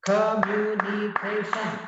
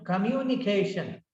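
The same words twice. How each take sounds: First: "Communication" chopped into five even beats; syllable by syllable. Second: Said in the usual way. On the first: Shown as a demonstration. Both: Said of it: "Five syllables".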